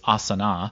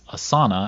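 First: It is pronounced the way the yoga term is said. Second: It is pronounced the way the company says it. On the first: It names the yoga pose. "the yoga flow, which is Asana" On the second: It names the software company. "they pronounce their name as Asana"

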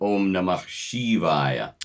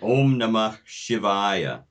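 First: Shivaya has a long ee sound. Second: Shivaya has a short i sound. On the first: This is the vernacular form. "rather than" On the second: This is the original Sanskrit form. "using that Sanskrit pronunciation"

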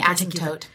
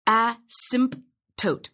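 First: The P sound is left out. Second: The P sound is clearly pronounced. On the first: "I never pronounce the P" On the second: "Some people say asymptote"

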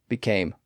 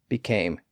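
No difference in how they are said.

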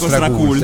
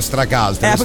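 First: The word is pronounced in a plain, homely way. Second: The word is pronounced in a posh, snobbish way. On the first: It suits a homely, casual crowd. "Se sono in un ambiente casareccio dico Stracult" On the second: It suits a snobbish crowd. "se sono in un ambiente di snob dico Stracult"

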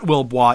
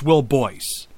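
First: The name ends with a 'bwah' sound. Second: The name ends with a 'boyce' sound. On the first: The speaker calls it wrong. "actually not Wilbois" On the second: The speaker calls it right. "it's Will Boyce"

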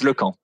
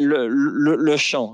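First: The middle consonant is a hard 'k' sound. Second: The middle consonant is a soft 'sh' sound. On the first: The speaker calls it right. "but it's Lecamp" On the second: The speaker calls it wrong. "people say Lechamp"

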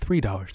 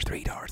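First: It is said quietly but with voice. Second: It is whispered without using the voice.

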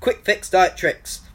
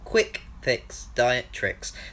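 First: The phrase is said very quickly. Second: The phrase is said at a slower pace.

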